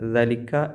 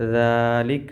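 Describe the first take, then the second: First: The first vowel is short. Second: The first vowel is long. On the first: The speaker calls it wrong. "ഒരിക്കലും ദലിക്ക എന്ന് വായിക്കരുത്" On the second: The speaker calls it right. "ഇവിടെ നീട്ടാനുണ്ട്"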